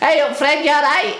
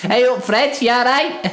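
First: It is said in a higher-pitched voice. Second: It is said in a lower-pitched voice.

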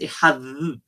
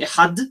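First: It ends with a soft th-like sound. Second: It ends with a hard d sound. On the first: The speaker calls it right. "proper Hebrew pronunciation is ihad. With a, like a th at the end" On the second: The speaker calls it wrong. "People who make the mistake of doing ihad"

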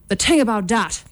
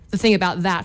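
First: It is said in an Irish accent. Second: It is said in a neutral accent.

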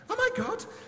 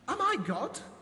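First: It is read in a panicked voice. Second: It is read in a calm, plain voice.

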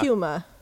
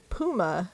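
First: It is said with a British pronunciation. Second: It is said with an American pronunciation.

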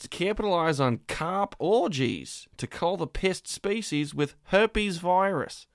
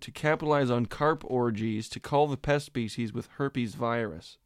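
First: It is read in a put-on Australian accent. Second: It is read in a non-Australian accent. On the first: "I get to do my Australian accent" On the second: "I'm going to try reading that in English"

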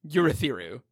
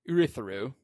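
First: The name begins with a 'you' sound. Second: The name begins with an 'oo' sound. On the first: The speaker calls it wrong. "I do not like saying Urithiru. I don't like the U" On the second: The speaker calls it right. "I like that better"

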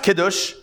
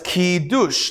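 First: It is said in the everyday spoken form. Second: It is said following the written vowels literally. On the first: This is how people usually say it. "it's pronounced Kiddush" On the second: This is how the word is literally written. "That's the literal way the word is"

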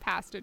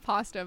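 First: Pasta is said with a Canadian pronunciation. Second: Pasta is said with a non-Canadian pronunciation. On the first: "I guess my Canadian side came out" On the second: "I usually say pasta"

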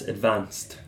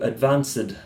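First: The ending is said as a t sound. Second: The ending is said as an extra syllable. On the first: The speaker calls it right. "it's advanced" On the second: The speaker calls it wrong. "Which isn't correct"

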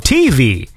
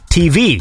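First: The stress falls on the first syllable, T. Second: The stress falls on the second syllable, V. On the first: "some people go" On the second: "Whereas I guess I put the emphasis on the V"

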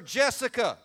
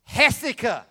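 First: The name begins with an English J sound. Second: The name begins with a Spanish H-like sound. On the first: This is what people at church call her. "Everybody that knows Jessica in this church calls her Jessica" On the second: This is her given name from her parents. "That ain't what their parents call her"

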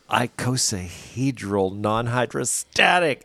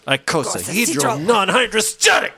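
First: It is said in a plain, everyday accent. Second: It is said in a put-on German accent.

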